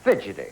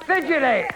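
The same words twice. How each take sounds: First: Said in the usual way. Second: High, falling game-show call; calling out answer. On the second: Real, not acted. Host asks the board for the answer, calling out.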